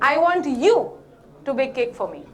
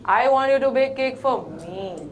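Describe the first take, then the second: First: The stress is on the word you. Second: The stress is on the word me.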